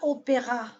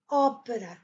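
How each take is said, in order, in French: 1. L'accent est sur la deuxième syllabe. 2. L'accent est sur la première syllabe. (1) "On ne dit pas opéra" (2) "L'accent est, il est sur le O"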